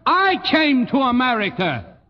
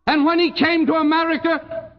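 First: "I" punched at the start of the line; stress on I. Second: "he" lifted high and leaned on; stress on he. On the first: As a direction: land hard on "I", then fall away. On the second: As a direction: hit the word "he" hard, then let it fall. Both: Acted. Contrasts he and I.

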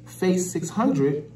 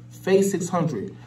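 The two takes are said the same way.

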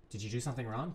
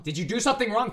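First: Soft, low accusing question; quiet suspicious question. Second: Higher, louder demanding tone; loud accusing question. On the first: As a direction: ask it softly, suspicious. First take, quiet. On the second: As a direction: demand an answer sharply. Repeated louder. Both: Pretend.

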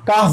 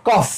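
First: American "काफ" with an open aa vowel; American accent. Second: British "कॉफ" with a rounded o vowel; British accent. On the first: Teacher shows pupils an alternative, American-accent "काफ". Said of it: "American accent है". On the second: Teacher contrasts it for pupils, British-accent "कॉफ". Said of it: "British accent में हमसे कहते हैं". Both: Shown as a demonstration.

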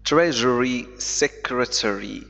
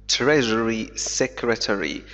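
Both takes have the same delivery.

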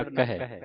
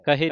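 First: ਕਹੈ with the open ai vowel at the end; correct reading. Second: ਕਹੇ with a plain short e ending, the wrong way; wrong reading. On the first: Teacher gives students the correct ਕਹੈ, with an open ai ending. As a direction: end ਕਹੈ on a broad ai, kahai. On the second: Teacher shows students the wrong reading, ਕਹੇ said as kahe. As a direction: say ਕਹੇ as kahe, the mistake to avoid. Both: Shown as a demonstration. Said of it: "ਕਹੇ ਨਹੀਂ ਪੜ੍ਹਨਾ".

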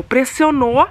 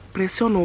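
First: "Pressionou" raised, rising at the end; "Pressionou" lifted and drawn up for emphasis; emphatic repeat. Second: Said in the usual way. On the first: Shown as a demonstration.

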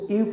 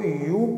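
First: यू opened with an "ee" vowel; wrong reading "ee-yoo". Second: यू as one syllable, like "you"; correct reading "yoo". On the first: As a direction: say यू as "ee-oo", vowel first. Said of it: "यू पढ़ना गलत है". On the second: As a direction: say यू starting with a y glide. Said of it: "इसको यू पढ़ा जाता है". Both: Shown as a demonstration.

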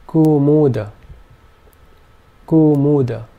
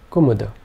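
First: Kumuda with long oo oo and a short final a; first two vowels long. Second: Kumuda quick, every vowel clipped; all vowels short. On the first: Teacher showing long first vowels in kumuda. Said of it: "the first two vowel sounds were long". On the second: Teacher showing all short vowels in kumuda. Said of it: "all three vowel sounds being short". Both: Shown as a demonstration.

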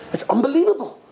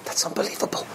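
First: Higher-pitched, full-voiced wonder; voiced amazement. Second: Hushed, voiceless amazement; soft whispered marvelling; awed whisper. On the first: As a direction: say it aloud, marvelling. Same reaction repeated aloud in amazement. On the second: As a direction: whisper it in wonder. Awed reaction to the story. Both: Real, not acted.

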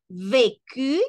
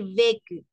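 First: "vécu" slow, both syllables full, rising end; correctly accented vécu. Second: "vécu" said quickly with a falling end; wrongly accented vécu. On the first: Teacher showing the force of voice, correctly accented vécu. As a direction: stretch "vécu" into VÉ-CU and lift the ending. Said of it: "la mayor fuerza de voz". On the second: Teacher showing learners how not to say it, wrongly accented vécu. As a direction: let "vécu" drop away quickly, unaccented. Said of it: "no es lo mismo decir vécu". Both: Shown as a demonstration.

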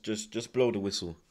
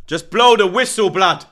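First: Said in the usual way. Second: Much louder and higher, yelling at the ref; desperate shout. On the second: Real, not acted. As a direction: scream it out in despair. Fan begging ref to end.

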